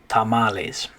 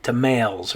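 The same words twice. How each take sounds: First: Tamales as tah-MAH-les; adopted Spanish pronunciation. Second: Tamales as tuh-MAILS; anglicized mispronunciation. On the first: Teacher returns to correct form, tamales said tah-MAH-les. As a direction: tamales with ah in the middle syllable. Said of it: "adopted that pronunciation". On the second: Teacher imagines an English word, tamales said tuh-MAILS. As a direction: rhyme tamales with females. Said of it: "we probably would pronounce it different". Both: Shown as a demonstration.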